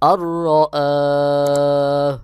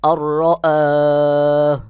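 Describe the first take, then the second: Both takes have the same delivery.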